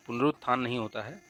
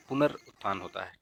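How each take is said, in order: First: पुनरुत्थान said as the wrong form, stressed; teacher naming the wrong word; wrong spelling said. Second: पुनरुत्थान said as the correct form, lower and settled; teacher confirming the right word. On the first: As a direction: flag पुनरुत्थान as the incorrect version. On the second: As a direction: give पुनरुत्थान as the right version. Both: Shown as a demonstration.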